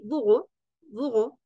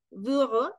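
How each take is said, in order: First: "burro" with a soft guttural r instead of a trill; soft throaty r burro. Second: "burro" with a rolled Spanish rr, rising end; trilled rr burro. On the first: Teacher contrasting two ways of saying it, guttural r. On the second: Teacher contrasting two ways of saying it, rolled r. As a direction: roll the rr in "burro". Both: Shown as a demonstration. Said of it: "no es lo mismo decir".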